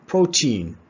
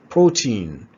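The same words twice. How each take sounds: The two takes are said the same way.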